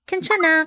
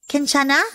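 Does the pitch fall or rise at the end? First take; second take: fall; rise. First: The pitch falls at the end. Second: The pitch rises at the end. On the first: The speaker says they are fine. "when you want to say that you're fine. Like this" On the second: It asks with compassion if someone is okay. "It can also become a word of compassion when asked this way"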